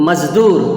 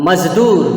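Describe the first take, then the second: No difference in how they are said.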